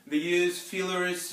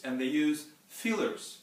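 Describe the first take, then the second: First: "use fillers" louder, slower, with "use" lifted high; stressed repeat. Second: Said in the usual way. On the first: Shown as a demonstration. Teacher to class, repeating "use fillers" with emphasis. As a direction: lean on "use" and slow it down.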